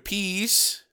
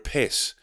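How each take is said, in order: First: The vowel is long, like in 'peace'. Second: The vowel is short, like in 'kiss'. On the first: "she said peas" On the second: "But instead of saying piss"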